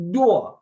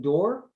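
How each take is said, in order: First: "door" stretched into two syllables, higher and louder. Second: Said in the usual way. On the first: Shown as a demonstration. Imitating New York friends, "door" in two syllables. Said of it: "might pronounce door with two syllables". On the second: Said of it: "when we're saying door".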